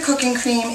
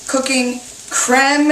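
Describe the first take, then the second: First: The last word rhymes with English 'dream'. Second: The last word has a French 'crem' vowel. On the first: "I say cream" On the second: "is really the way this should be pronounced, like creme fraiche or creme brulee"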